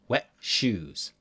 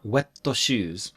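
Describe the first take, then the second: First: The t in wet ends without a vowel. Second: An extra vowel follows the t in wet. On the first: The speaker calls it right. "Mm-mm. Wet shoes" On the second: The speaker calls it wrong. "Not wetto shoes"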